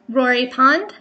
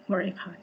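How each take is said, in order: First: Said in the usual way. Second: Rory Pond dropped low and much softer; mumbled aside. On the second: Shown as a demonstration. Repeating a word she already read, quiet mumble. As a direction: toss off "Rory Pond" under her breath. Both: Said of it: "I read that before".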